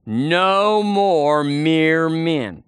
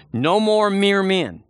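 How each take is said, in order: First: Very slow, drawn-out "No more mere men" for the crowd to echo; slow call-and-response. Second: Slow, stressed "No more mere men", each word weighted; emphatic declaration. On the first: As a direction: stretch every word of "No more mere men" so the church can say it along. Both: Shown as a demonstration. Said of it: "Say it with me".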